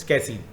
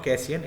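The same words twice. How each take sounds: First: "कैसीन" said as kay-seen, two syllables; "कैसीन" with -seen, not -si-yan; corrected pronunciation. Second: "कैसियन" said as kay-si-yan, three syllables; "कैसियन" with a gliding -yan at the end; mistaken pronunciation. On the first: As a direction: end "कैसीन" on a long ee plus n. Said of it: "it's कैसीन". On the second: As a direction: give "कैसियन" the -ian ending. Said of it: "मैं गलत बोलता हूँ". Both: Shown as a demonstration.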